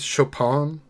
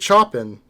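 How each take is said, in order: First: The name is given a French pronunciation. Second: The name is read the way English spelling suggests. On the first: The speaker calls it right. "That would be like the French pronunciation of it" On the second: The speaker calls it wrong. "reading it in my head without anybody saying it, I would just say Chopin ... it's clearly not that"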